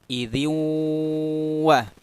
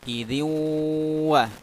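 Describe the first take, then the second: The two takes are said the same way.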